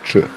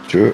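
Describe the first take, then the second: First: The ch sound is hard and heavier. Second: The ch sound is soft and light. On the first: "hard ch" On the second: "soft ch"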